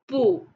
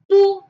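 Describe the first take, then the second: First: The pitch rises. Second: The pitch falls sharply. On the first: "it changes to the second tone" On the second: "The tone is the fourth tone"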